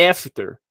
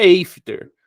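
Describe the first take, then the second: First: After said as "EF-ter", open first vowel; correct short A. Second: After mispronounced as "EIF-ter"; wrong "ay" vowel. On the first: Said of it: "é after". ("after" certo, dito "éfter") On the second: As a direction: open "after" with the letter-name A, "ei". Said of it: "não é after". ("after" errado, dito "êifter") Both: Shown as a demonstration.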